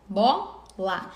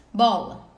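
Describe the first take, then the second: First: "bola" split into bo... la; syllable by syllable. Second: Said in the usual way. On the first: Shown as a demonstration. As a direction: say "bola" as two separate syllables, the first one stretched. Teacher splits word into syllables. ("bola" separando as sílabas: bo... la)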